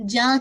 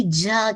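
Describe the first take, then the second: First: جا with a firm j from mid-tongue; correct jeem sound. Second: جا with an off-target, leaky j; wrong jeem sound. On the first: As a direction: press mid-tongue to palate for a clean جا. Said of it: "جا کی sound آئے گی". (جا میں صاف جیم) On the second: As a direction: let the j of جا slip loosely. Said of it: "جا کی ساؤنڈ نہیں آئے گی". (جا میں غلط جیم) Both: Shown as a demonstration.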